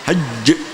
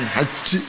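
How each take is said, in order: First: The final consonant is pressed with the mid-tongue. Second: The final consonant is said loosely, not pressed. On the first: The speaker calls it right. "Yang ditekan tengah lidah, tapi hajj" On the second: The speaker calls it wrong. "bukan haji"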